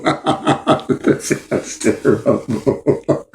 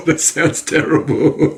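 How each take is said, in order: First: "That sounds terrible" dragged out, unvoiced, lost in laughter; breaking up laughing. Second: "That sounds terrible" said slowly through laughter; half-laughing, slowed, at "That sounds terrible". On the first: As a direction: let "That sounds terrible" collapse into breathy laughter. Dissolves into laughter. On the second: Laughing at own story. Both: Real, not acted.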